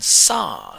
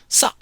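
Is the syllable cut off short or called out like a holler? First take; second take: hollered; cut short. First: The syllable is called out like a holler. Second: The syllable ends with a short, abrupt cutoff. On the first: It means to eat. "spoken as if you're hollering at somebody" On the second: It means to start something. "spoken with a short, abrupt cutoff"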